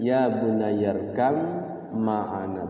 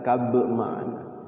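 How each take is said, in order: First: The sound before ma'ana is an m. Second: The sound before ma'ana is a b. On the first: The speaker calls it right. "Ya bunayyarkam ma'ana, bukan kab ma'ana" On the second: The speaker calls it wrong.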